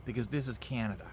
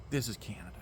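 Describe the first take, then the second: First: Said in the usual way. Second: Whisper. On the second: Shown as a demonstration. Dramatic repeat, then whispered.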